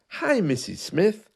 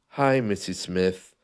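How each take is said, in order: First: The voice starts high and moves up and down. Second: The voice is pushed low and stays down. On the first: The speaker sounds friendly and energized. The speaker calls it right. "make sure your voice starts high and bring it down and then up and down" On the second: The speaker sounds less pleasant. The speaker calls it wrong. "if you take your usual tone of voice and you push it down"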